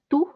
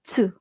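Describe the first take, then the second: First: The syllable begins with a plain t sound. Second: The syllable begins with a ts sound. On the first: The speaker calls it wrong. "instead of T U na tu" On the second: The speaker calls it right. "nagiging T S sound siya na ts, ts, plus U. So, that will be tsu"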